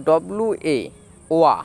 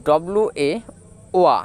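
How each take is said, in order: Both takes have the same delivery.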